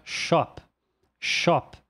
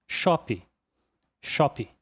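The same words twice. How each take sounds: First: Shop ending cleanly on the p; correct English shop. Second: Shop with an extra i at the end, like shopi; Brazilian English shop. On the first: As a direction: stop shop on the p. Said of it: "O último fonema a ser pronunciado é o p". (shop pronunciado corretamente, terminando em p) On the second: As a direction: add a final i to shop. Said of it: "E isso acaba ficando". (shop abrasileirado, com i no final) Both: Shown as a demonstration.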